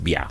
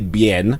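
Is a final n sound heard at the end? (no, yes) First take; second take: no; yes. First: The word ends without any n sound. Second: The word ends with an audible n sound. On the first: This is the original French pronunciation. The speaker calls it right. "It's just beer. The n is not pronounced" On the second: This is how it is said in Kenyan slang. The speaker calls it wrong. "We say bien"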